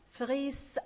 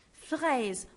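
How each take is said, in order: First: FRAISE ending in an unvoiced s; wrong hissed ending. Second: FRAISE ending in a buzzing z; teacher's clear FRAISE with a z at the end; correct voiced ending. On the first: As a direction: mispronounce FRAISE as "fress". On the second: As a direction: model FRAISE as "frez", voiced final sound. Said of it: "on dit fraise". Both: Shown as a demonstration.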